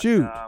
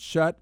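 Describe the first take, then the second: First: The vowel sounds like the one in 'shoot'. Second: The vowel sounds like the one in 'shut'. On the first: The speaker calls it right. "So it is Shoot" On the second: The speaker calls it wrong. "am I pronouncing that name right? Is it Shutt?"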